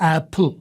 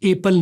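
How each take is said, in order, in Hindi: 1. p की ध्वनि के साथ हवा का एक फूंक जैसा झटका निकलता है। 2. p की ध्वनि नरम है, इसमें हवा का झटका नहीं है। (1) "और पी एप्पल का ब्लास्ट हो जाएगा" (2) "एप्पल नहीं"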